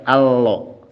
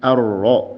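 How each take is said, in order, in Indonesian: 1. R terdengar seperti l. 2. R memiliki getaran yang ringan dan lembut. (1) "jangan juga allo. Jadi kayak huruf L" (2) "Contohnya ar-Rahman"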